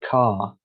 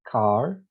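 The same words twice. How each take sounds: First: The final R sound is left out. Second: The final R sound is clearly pronounced. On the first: "if you are a non-rhotic speaker, you don't say the R's like this" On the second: "if you're a rhotic speaker, you pronounce in each and every word the letter R"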